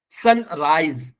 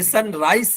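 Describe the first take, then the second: First: "सनराइज" ending in a buzzing Z. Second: "सनराइज" ending in a voiceless S, "sun-rice"; wrong hard S. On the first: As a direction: say "सनराइज" as "sun-raiz". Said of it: "एस की आवाज जा से आएगी". ("सनराइज" में ज़ा की आवाज़) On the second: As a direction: say the end of "सनराइज" as S. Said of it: "ये सनराइज नहीं है". ("सनराइज" में एस की आवाज़) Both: Shown as a demonstration.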